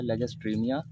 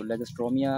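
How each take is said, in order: First: लेगेस्ट्रीमिया with silent O, "-stree-miya"; the "tree" version of लेगेस्ट्रीमिया, no O sound; correct pronunciation. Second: लेगेस्ट्रोमिया with the O sounded, "-stro-miya"; the common "tro" version of लेगेस्ट्रोमिया; popular pronunciation. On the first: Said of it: "scientific नाम है तलफ़ुज़ के साथ". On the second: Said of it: "भी मशहूर नाम है". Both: Shown as a demonstration.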